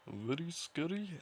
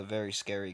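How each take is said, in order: First: High, slow mock Indian accent; exaggerated Indian accent. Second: Said in the usual way. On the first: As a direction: put on an overdone Indian accent. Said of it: "Is that a real accent ... stereotypical Indian individual".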